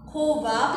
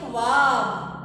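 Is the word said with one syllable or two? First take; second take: two; one. First: The word is said in two syllables, kho-baab. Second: The word is said in one syllable, khwaab. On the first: The speaker calls it wrong. "खोबाब लफ्ज होता है कि ख्वाब" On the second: The speaker calls it right. "हमारा सही लफ्ज क्या होता है"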